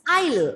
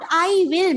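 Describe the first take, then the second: First: It is said as one contracted word. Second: It is said as two full words. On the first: The speaker calls it right. "It's I'll. It's a contraction" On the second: The speaker calls it wrong. "not I will"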